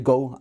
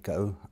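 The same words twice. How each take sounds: First: It is said in a Caribbean accent. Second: It is said in the speaker's own accent. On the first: "a Caribbean speaker might well say go as well" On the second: "So I would say go"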